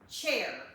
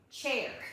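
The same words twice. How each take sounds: First: The vowel sounds like the one in 'chair'. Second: The vowel sounds like the one in 'chair'.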